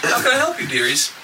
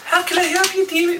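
First: High crone-like barmaid greeting; sweet old innkeeper voice. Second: Very high squeaky hag voice. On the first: Acted. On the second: Shown as a demonstration. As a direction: pitch way up like an old hag. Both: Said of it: "I'm gonna try voice".

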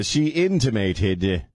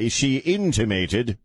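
First: "intimated" said slowly and savored; savoring intimated. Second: "intimated" drawn out slowly with a rise; savoring intimated. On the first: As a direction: linger on "intimated" like a fancy word. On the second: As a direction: relish "intimated" to sound educated. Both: Shown as a demonstration. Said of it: "I love saying the word intimated".

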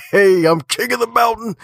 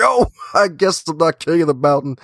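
First: High-pitched gleeful crow; mock boast. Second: High-pitched comic realization; mock letdown. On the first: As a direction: crow it like a cocky champion, way up high. Acting out boasting after wins. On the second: Acting out the humbled climber.

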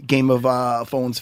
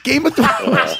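First: "Phones" said with an f in place of "Thr"; mispronounced Thrones. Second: "Thrones" with a proper "Thr", pitched high; corrected pronunciation. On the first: Fanboy gushing to the show's creators, mispronounced "Phones". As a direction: slip so that "Thrones" comes out "Phones". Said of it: "No, it's Game of Phones". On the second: Co-host correcting himself before the creators, insistent "Thrones". Correcting his own slip. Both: Real, not acted.

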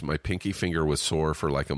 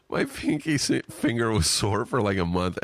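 First: Said in the usual way. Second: Higher-pitched, cracking up while reading; laughing. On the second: Real, not acted. Podcaster reading a listener's email about a sore pinky, laughing. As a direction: struggle to read it through real laughter. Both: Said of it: "Sorry for laughing".

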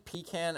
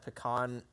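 First: "pecan" as PEE-can; "pecan" stressed up front, PEE-can; childhood pronunciation. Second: "pecan" as puh-KAHN; "pecan" with short first vowel and open ah; less goofy pronunciation. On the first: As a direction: say "pecan" with long ee and a flat a. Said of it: "I grew up saying pecan". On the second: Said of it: "sounds less goofy". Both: Shown as a demonstration.

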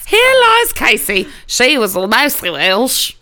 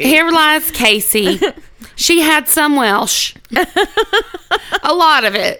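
First: Hammed-up Southern graveside proclamation; Southern accent. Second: Put-on Southern accent. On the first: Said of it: "in a southern accent just like that". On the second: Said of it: "they say it in a southern accent".

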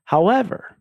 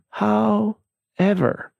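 First: Said in the usual way. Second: "however" stretched very slowly, high-pitched; drawn-out "however". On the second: Real, not acted. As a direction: drag out "however" for dramatic suspense. Word repeated, drawn out for effect.

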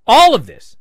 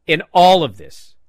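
First: All of this said louder and higher, hammered home; insisting All of this, firmly and loud; stress on All of this. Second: Said in the usual way. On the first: Real, not acted. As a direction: repeat All of this with heavy emphasis.

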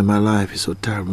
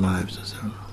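First: Said in the usual way. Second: Hushed, breathy repeat of the complaint; whispered repeat. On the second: Retold or imitated. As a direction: drop to a whisper on the second "my life is so terrible".

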